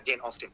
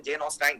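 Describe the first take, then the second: First: Said in the usual way. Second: "অস্টাইন" with a long "ain" ending; friend's mispronunciation. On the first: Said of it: "আর লেখকের নাম হচ্ছে". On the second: Retold or imitated. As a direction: imitate a beginner saying "অস্টাইন", rhyming with "fine". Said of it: "তো actual উচ্চারণটা হচ্ছে". ("অস্টাইন"-এর শেষে ভুল "আইন" উচ্চারণ)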